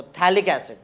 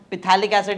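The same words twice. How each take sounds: First: थैलिक starting on TH, the P left silent. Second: पिथैलिक with the P sounded, pi-THA-lik; saying पिथैलिक as a mistake, P spoken; wrong pronunciation. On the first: Teacher corrects students: थैलिक with the P silent. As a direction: say थैलिक as THA-lik, no P at all. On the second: Teacher shows students the wrong way: पिथैलिक with P pronounced. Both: Shown as a demonstration. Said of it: "पी silent है".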